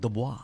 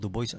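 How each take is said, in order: First: It is pronounced the native French way. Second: It is read as spelled, English-style. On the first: The speaker calls it right. "Pakinggan mo pag pronounce nila yan" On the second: The speaker calls it wrong. "Sabi ko, Dubois. Mali"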